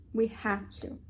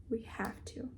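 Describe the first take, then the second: First: Said in the usual way. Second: Breathy whispered resolve; a soft whispered we have to. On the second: Real, not acted. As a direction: whisper it to yourself, determined. Whispered repeat to herself.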